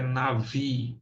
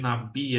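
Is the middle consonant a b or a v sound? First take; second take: v; b. First: The middle consonant is a v sound. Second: The middle consonant is a b sound. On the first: The speaker calls it right. "a pronúncia correta é Navi" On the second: The speaker calls it wrong. "Algumas vezes você vai ver Nabi aí"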